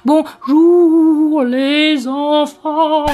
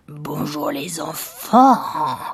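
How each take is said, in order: First: It is said in a spooky ghost's voice. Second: It is said in a gruff villain's voice. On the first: "ça c'était un fantôme" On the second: "avec cette voix de méchant"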